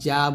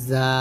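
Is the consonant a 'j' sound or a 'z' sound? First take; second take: j; z. First: The consonant sounds like a 'j'. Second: The consonant sounds like a 'z'. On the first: The speaker calls it wrong. "আমরা জাটা উচ্চারণ করি জিমের মতো, যা বলি, এটা কিন্তু করা যাবে না।" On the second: The speaker calls it right. "জিহ্বাটা নিচে দুই দাঁতের আগার সঙ্গে লাগাবেন, যা এরকম।"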